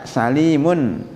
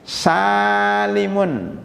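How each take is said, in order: First: The second syllable has a long i vowel. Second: The first syllable has a long a vowel. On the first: Safe permanently. "Salim pakai ya" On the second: Safe only temporarily. "Kalau ada hamzahnya"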